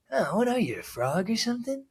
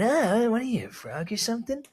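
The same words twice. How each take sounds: First: High, sinister villain sneer; super villain voice. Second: High, sneering villain taunt; super villain voice. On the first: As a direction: play it like a comic book villain. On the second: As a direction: ham it up like a cartoon villain. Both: Retold or imitated. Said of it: "like a super villain".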